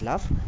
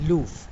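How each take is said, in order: First: The vowel is a short 'uh' sound. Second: The vowel is a long 'oo' sound. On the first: This is the modern pronunciation. "so now it is pronounced as love" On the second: This is the old pronunciation from the poem's era. "It was pronounced as loof at that point of time"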